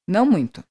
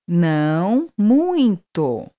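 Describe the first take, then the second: First: It is said fast, at natural speed. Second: It is said slowly, broken into parts.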